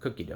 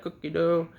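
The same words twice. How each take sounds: First: It is said quietly and softly. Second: It is said in a playful, fun way.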